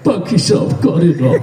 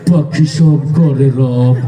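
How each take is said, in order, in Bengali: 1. এটি কান্না-কান্না ভঙ্গিতে, কাঁদো কাঁদো সুরে আবৃত্তি করা হয়েছে। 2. এটি ভয় দেখানো, ভীতিকর ভঙ্গিতে আবৃত্তি করা হয়েছে। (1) "সে কানতে কানতে কয়" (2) "তোরটা তো আরো বেশি ভয়ঙ্কর শোনা গেল"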